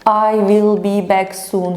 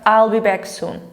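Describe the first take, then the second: First: Will is a full separate word, at normal speed. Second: Will is contracted onto I, said quickly. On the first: "şöyle bir cümle yapsa" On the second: "hem hızlı söyleyeyim hem contract"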